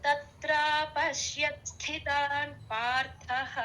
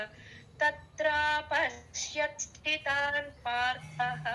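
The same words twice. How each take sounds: No difference in how they are said.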